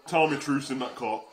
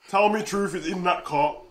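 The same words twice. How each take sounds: First: Said in the usual way. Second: "Truth is in" spelled out slowly; slow down and lean on each word of "Truth is in that cart"; emphatic repeat. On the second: Real, not acted. Streamer hoping Truth is in the cart, slow and emphatic.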